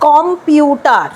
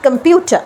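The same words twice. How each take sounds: First: কম্পিউটার slowly as "kom-pyu-taar"; Indian pronunciation. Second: কম্পিউটার as "kum-PYOO-tuh"; correct pronunciation. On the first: Teacher demonstrates Indians' habit, slow Indian pronunciation. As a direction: drag out কম্পিউটার, full o and a. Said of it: "ইন্ডিয়ানরা এইভাবে বলে থাকি". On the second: Teacher corrects the Indian habit, correct pronunciation. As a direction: open কম্পিউটার with a weak "kum", no r. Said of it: "ওয়ার্ডটা হচ্ছে". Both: Shown as a demonstration.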